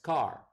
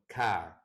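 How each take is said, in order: First: The final R sound is clearly pronounced. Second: The final R sound is dropped.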